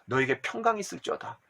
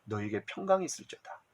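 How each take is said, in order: First: Said in the usual way. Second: Much softer, lower, gentle blessing; Jesus comforting the trembling disciples, soft and tender. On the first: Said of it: "막 삿대질하고 야단친 것이 아니라". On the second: Pretend. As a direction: soothe frightened disciples softly. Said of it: "두려워 떨고 있는 것을 알고".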